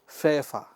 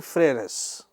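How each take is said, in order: First: The word is pronounced with a French accent. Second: The word is pronounced with an English accent. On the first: The speaker calls it right. "but in French it is" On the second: The speaker calls it wrong. "if in English we read it"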